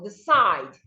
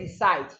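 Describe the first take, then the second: First: The stress is on the second syllable. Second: The stress is on the first syllable. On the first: The speaker calls it right. "this one is also decide" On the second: The speaker calls it wrong. "I didn't say decide"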